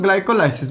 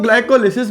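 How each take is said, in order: First: ग्लाइकोलाइसिस, its third syllable rhyming with "eye"; variant pronunciation. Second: ग्लाइकोलिसिस, its third syllable as "li", not "lai"; variant pronunciation. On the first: Teacher showing students the other way people say it, ग्लाइकोलाइसिस with "lai". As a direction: say "ग्लाइकोलाइसिस" with a long glide in लाइ. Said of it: "कुछ लोग ग्लाइकोलाइसिस बोलते हैं". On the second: Teacher showing students how some people say it, ग्लाइकोलिसिस with short "li". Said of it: "कुछ लोग ग्लाइकोलिसिस बोलते हैं". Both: Shown as a demonstration.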